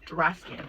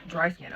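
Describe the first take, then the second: First: "dry" flattened to "drah" in "dry skin"; slurred DRY. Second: Said in the usual way. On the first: Real, not acted. Vlogger slipping on "dry", saying it like "drah". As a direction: say "dry" as "drah", losing the glide. Slips on words, then repeats them.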